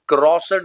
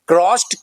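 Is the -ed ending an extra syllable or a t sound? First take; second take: extra syllable; t sound. First: The ending is said as an extra syllable. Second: The ending is said as a short t. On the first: The speaker calls it wrong. "क्रॉसड नहीं बोलेंगे" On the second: The speaker calls it right. "Effective and right pronunciation would be क्रॉस्ड"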